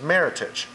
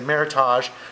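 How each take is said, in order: First: It is pronounced in a plain American way. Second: It is pronounced in a French-sounding way. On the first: "which is a very American pronunciation" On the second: "think it looks French, they say Meritage"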